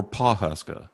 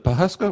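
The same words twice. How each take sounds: First: "Pawhuska" with an open "paw" at the start; full first syllable. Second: "Pawhuska" with a short, unstressed "puh" at the start; first syllable reduced. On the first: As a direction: say "Pawhuska" as PAW-hus-kuh. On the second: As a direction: say "Pawhuska" as puh-HUS-kuh. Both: Shown as a demonstration. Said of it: "is it Pawhuska or Pawhuska?".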